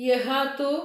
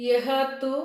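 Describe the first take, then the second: The two takes are said the same way.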